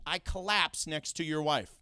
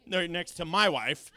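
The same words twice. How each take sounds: First: Said in the usual way. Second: "my" punched louder in correction; emphatic correction landing on "my"; stress on my. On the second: Real, not acted. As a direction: hit the word "my" to fix a slip. Corrects slip, stressing the owner.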